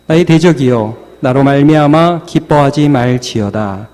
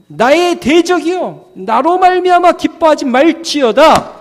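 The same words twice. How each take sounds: First: Said in the usual way. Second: High, declaimed scripture; confession of faith. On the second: Acted. Believer confronting the enemy in faith, declaiming. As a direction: proclaim it defiantly at a high pitch. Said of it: "이렇게 믿음으로 고백하는".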